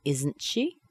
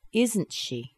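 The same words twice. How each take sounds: First: "Isn't she" with held T, rising end; rising intonation. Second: "Isn't she" high, then falling; falling intonation. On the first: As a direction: let "she" swing up as a question. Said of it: "we have a held T". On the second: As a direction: stress "Isn't", drop on "she". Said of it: "let the intonation fall down". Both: Shown as a demonstration.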